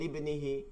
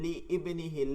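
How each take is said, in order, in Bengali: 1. শব্দ দুটি একসাথে মিশে যায় এবং 'i' বাদ পড়ে। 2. দুটি শব্দ আলাদাভাবে 'i' সহ উচ্চারিত হয়। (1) "আয়াত মিলিয়ে পড়ার সময় হামজাতুল ওয়াসল উচ্চারিত হয় না" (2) "হামজাতুল ওয়াসল দিয়ে শুরু হওয়া শব্দকে"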